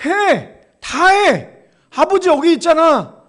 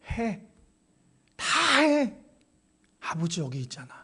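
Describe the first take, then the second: First: Loud, high proclamation of the father's promise; preacher booming the father's promise; ringing shout. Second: Quiet, falling, intimate promise; gentle closing words from the pulpit; soft and hushed. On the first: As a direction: shout it out to the whole church. Preacher proclaims God's words. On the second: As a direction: drop to a near hush and comfort them. Same words, quietly to close. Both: Acted.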